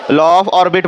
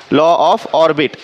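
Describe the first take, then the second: First: Law of orbit, said slowly with the stress on of; slow model answer. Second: Chanted, law of orbit drawn out very slowly in unison; the whole class chants law of orbit, stretched long. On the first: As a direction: spell out law of orbit word by word for the class. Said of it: "हां, असं सांगायचं". (law of orbit हळू, of वर जोर) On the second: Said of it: "काय म्हणतात?". (chanted, law of orbit खूप सावकाश एकसुरात) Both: Shown as a demonstration.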